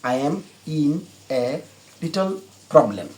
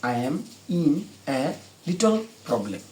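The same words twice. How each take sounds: The two takes are said the same way.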